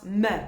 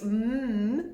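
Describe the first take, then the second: First: The consonant is followed by a short 'uh' vowel. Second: The consonant is held with no added vowel. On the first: The speaker calls it wrong. "not m, ... we're so tempted to put that uh on the end" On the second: The speaker calls it right. "It's mm"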